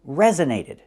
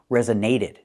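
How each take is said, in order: First: The first syllable carries the strongest stress. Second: The third syllable carries the strongest stress. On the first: The speaker calls it right. "I can stress the first syllable more because that's the primary stress" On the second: The speaker calls it wrong. "I cannot overly stress the secondary stress. I cannot say"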